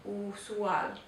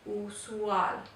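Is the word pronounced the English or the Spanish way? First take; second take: Spanish; Spanish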